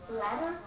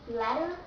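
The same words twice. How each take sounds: The two takes are said the same way.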